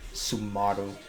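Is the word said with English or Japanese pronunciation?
Japanese. It is said with added Japanese vowels.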